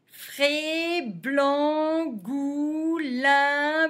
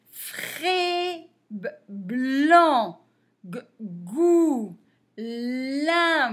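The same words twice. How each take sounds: First: Quicker syllable reading. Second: First consonant held or repeated, then a long vowel; slow sounding out. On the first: Teacher repeating the list for pupils, quicker and linked. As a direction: run the syllables together in an even chant. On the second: Teacher reading syllables for beginners, slowly sounded out. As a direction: sound out each syllable separately, with pauses. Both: Shown as a demonstration.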